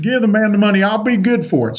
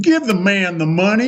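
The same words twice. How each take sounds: First: Higher Texan command, retold; imitated Texan vouching for a friend. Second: Higher Texan command, imitated; lightly imitated Texan insisting to a clerk. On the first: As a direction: repeat the Texan order firmly. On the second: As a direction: order it like a Texas boss. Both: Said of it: "he talks like a Texan".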